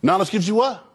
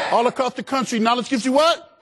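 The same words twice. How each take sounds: First: Said in the usual way. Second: High, rising rally cry; rousing crowd call. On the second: Real, not acted. Speaker asking students all across the country, rousing high call. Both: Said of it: "I can't hear you".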